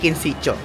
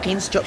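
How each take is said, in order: First: The middle syllable is clearly voiced. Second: The middle syllable is nearly dropped. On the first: The speaker calls it wrong. "hindi Kinsitcho" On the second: The speaker calls it right. "Kinscho pala talaga ang tawag doon"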